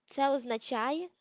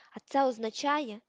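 First: Slow, sneering echo of the question; mocking repeat. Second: Said in the usual way. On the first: A narrator's reading. Malfoy mocking dim Crabbe, slow sneering echo. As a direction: drag it out to mock his dimness. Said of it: "Мелфой ледве приховував роздратування".

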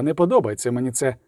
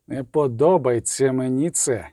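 First: Said in the usual way. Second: Drawn-out, weighted repetition; slow uneasy repeat. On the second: A narrator's reading. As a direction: say it slowly, each word weighed. Same line repeated slowly for emphasis.

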